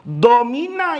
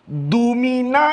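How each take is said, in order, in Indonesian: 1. Vokal pertama terdengar seperti o. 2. Vokal pertama terdengar seperti u. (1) "kalau mau dibaca domina, maka failnya adalah Allah" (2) "yang membaca Dumina"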